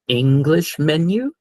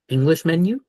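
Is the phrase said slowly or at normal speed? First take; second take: slowly; normal speed. First: It is said slowly and carefully. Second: It is said at a normal, quick pace.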